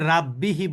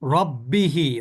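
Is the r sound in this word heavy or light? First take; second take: light; heavy. First: The r is light, with a thin open a. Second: The r is heavy, with a full rounded vowel. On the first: The speaker calls it wrong. "আমরা কিন্তু এখানে রাব্বিহি বলতে পারবো না" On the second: The speaker calls it right. "র এর উপরে কি আছে? এখানে জবর আছে"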